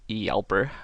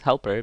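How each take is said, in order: First: The word begins with a y sound. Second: The word begins with an h sound. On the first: This is the Swedish pronunciation. "which is the correct Swedish pronunciation" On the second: This is an English pronunciation. "because I like to speak English"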